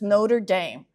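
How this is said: The name is said the American English way. The speaker calls it right. "in American English, it's Notre Dame"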